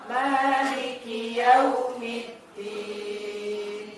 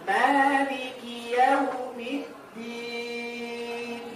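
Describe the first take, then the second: No difference in how they are said.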